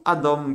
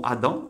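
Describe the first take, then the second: First: "Adam" pronounced "adom", with o in the second syllable; vowel change. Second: "Adam" with an open a in the second syllable; vowel demonstration. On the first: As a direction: turn the last vowel of "Adam" into a clear o. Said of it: "ils ont rajouté un point ici". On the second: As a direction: say "Adam" clearly, ending on an -am sound with open a. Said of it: "on a deux voyelles qui font ça". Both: Shown as a demonstration.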